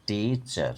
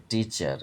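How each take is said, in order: First: টিচার drawn out as টি, চার; split in two syllables. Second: Said in the usual way. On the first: Shown as a demonstration. Teacher showing syllables, টিচার as long টি-চার. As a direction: separate both beats of টিচার. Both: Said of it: "দুবার উচ্চারণ হচ্ছে".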